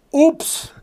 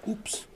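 First: High, loud, incredulous oops; outraged mock repeat. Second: Small whispered oops; retold quiet oops. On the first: Patient repeating the doctor's answer, loudly incredulous. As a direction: shout the oops back in disbelief. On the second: Doctor admitting the mix-up to the patient, hushed. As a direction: drop it softly, as a tiny admission.

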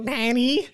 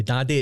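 First: High-pitched nasal whine on "daddy"; mock-whiny, whistly nasal squeal. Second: Said in the usual way. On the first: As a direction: imitate a whiny "daddy", pushed out through the nose. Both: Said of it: "it sounds quite whiny".

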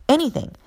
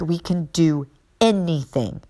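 First: Anything lifted high; a speaker driving home her faith, repeating anything high and emphatic. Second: Said in the usual way. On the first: Shown as a demonstration. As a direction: hit anything up high a second time. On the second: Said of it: "anything, anything".

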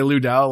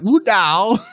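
First: Said in the usual way. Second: LU DAO higher, mimicking a Chinese speaker; imitated Chinese accent. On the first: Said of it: "in, like, an English accent". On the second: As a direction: say "Lu Dao" like a native Chinese podcaster, pitched up. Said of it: "this Chinese guy is, like, saying it".

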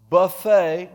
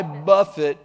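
First: Loud BUFFET with a silent T, ending in "ay"; mispronounced BUFFET. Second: Loud, deliberate "BUFF-it" for BUFFET; corrected BUFFET. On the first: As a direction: say BUFFET like the meal, "buh-FAY". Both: Shown as a demonstration.

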